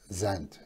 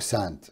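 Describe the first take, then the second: First: The name begins with a z sound. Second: The name begins with an s sound.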